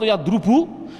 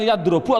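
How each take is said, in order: First: The vowel before the last syllable is u. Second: The vowel before the last syllable is a. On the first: "Jawabnya tidak boleh" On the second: "Jawabnya tidak boleh"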